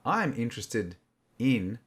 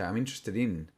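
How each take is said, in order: First: There is a pause before the final word. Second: The final word flows on without a pause. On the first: The speaker calls it wrong. "We don't put a pause. We don't say" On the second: The speaker calls it right. "We say ... It becomes one word ... It sort of flows together"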